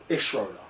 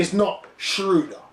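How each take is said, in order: First: "Schroeder" said SHROH-duh, with an OH vowel; low, soft, matter-of-fact "Schroeder" as SHROH-duh; correct pronunciation. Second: "Schroeder" said SHROO-duh, with an OO vowel; slow, pointed "Schroeder" as SHROO-duh; mispronunciation shown. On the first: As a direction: drop the pitch, OH in "Schroeder". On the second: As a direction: stretch the wrong OO in "Schroeder". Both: Shown as a demonstration. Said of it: "just pronounce the man's name correctly".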